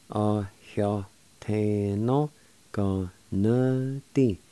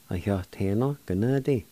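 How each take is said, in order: First: "A heo te no. Go na di." slowly, every syllable stretched; slow, careful pronunciation. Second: Said in the usual way. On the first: Shown as a demonstration. Teacher putting "A heo te no. Go na di." together for learners, slowly. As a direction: draw out each syllable of "A heo te no. Go na di.". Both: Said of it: "And together".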